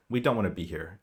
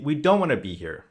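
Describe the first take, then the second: First: "We don't wanna be here" said lower and softer, in one flat tone; monotonic. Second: Said in the usual way. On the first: Shown as a demonstration. Coach showing a threatened player's reply: lower, softer, monotonic. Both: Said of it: "kind of monotonic".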